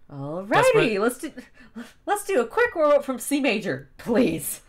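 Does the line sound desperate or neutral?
desperate. The line sounds desperate and pleading.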